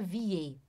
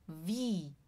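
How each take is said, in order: First: It has an 'ee' followed by an 'e' sound. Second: It has one long 'ee' vowel sound. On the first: The speaker calls it wrong. "não é vie" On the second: The speaker calls it right. "a gente chama wie"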